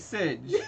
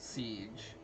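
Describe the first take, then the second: First: The name is said like sidge. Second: The name is said like the word siege. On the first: The speaker calls it right. "I want it to be Sidge" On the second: The speaker calls it wrong. "They were pronouncing it siege"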